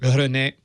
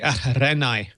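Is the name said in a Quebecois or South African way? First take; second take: Quebecois; South African. First: The name is said in a Quebecois way. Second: The name is said in a South African way. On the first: "Tell me the Quebecois pronunciation again" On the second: "where I was born in South Africa, it'd be Renai"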